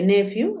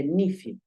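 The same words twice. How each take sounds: First: "nephew" said NEF-yu, with an E; E sound in "nephew", NEF-yu; first nephew variant. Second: "nephew" said NIF-yu, with an I; I sound in "nephew", NIF-yu; second nephew variant. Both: Shown as a demonstration. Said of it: "Se puede nephew o se puede nephew".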